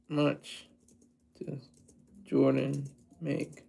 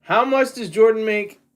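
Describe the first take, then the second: First: Low, slow, half-murmured repeat of the question; quiet repeat. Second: Said in the usual way. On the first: Shown as a demonstration. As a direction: mutter it under your breath, musing.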